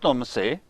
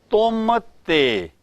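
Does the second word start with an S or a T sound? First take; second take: S sound; T sound. First: The second word starts with an S sound. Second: The second word starts with a T sound. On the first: The speaker calls it wrong. "It is not tum se" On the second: The speaker calls it right. "pronounce it correctly"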